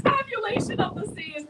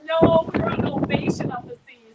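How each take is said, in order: First: Teasing pun. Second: Said in the usual way. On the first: Pretend.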